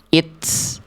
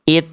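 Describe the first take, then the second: First: The final t is followed by a hissing s. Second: The final t is released with a breath puff. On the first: The speaker calls it wrong. "jangan sampai ada keluar bunyi es ya" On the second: The speaker calls it right. "hanya percikan nafas aja"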